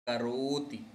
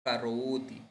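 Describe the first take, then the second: The two takes are said the same way.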